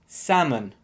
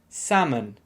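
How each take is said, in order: First: The L is silent, with a schwa vowel. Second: The same.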